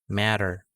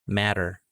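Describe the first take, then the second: Both takes have the same delivery.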